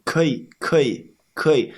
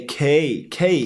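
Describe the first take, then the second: First: 可以 said as two separate sounds; two clear sounds. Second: 可以 said as "kei", the two syllables squashed together; 可以 mushed into "kei"; learner's mispronunciation. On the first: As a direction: split 可以 into two distinct syllables. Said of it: "Pause a little bit and then make the E sound". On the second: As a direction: squash 可以 into one syllable like a foreigner. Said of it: "so they say". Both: Shown as a demonstration.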